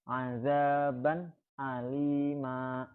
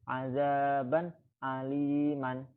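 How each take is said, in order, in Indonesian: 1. Kata terakhir berakhir dengan vokal panjang. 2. Kata terakhir berakhir dengan bunyi n. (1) "Dibacanya jadi" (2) "asalnya seperti ini"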